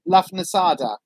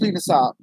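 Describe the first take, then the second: First: The name begins with 'Luff' and has four syllables. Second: The name begins with 'Loo' and has three syllables. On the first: This is how the spelling looks like it should sound. The speaker calls it wrong. "Lafnasada is the way that my brain wants to read it" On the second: This is the accepted pronunciation. The speaker calls it right. "I know it's Lunarsar"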